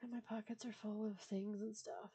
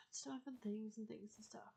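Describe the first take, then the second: First: Said in the usual way. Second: Soft whispered singsong aside; playful whisper. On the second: Pretend. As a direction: breathe it out as a silly aside.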